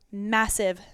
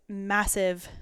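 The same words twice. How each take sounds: The two takes are said the same way.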